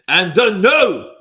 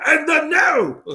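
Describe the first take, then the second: First: Loud, slow announcer voice; announcer call. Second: High, loud announcer call; ring announcer. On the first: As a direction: draw out the no. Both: Pretend. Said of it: "I'm gonna say that all day".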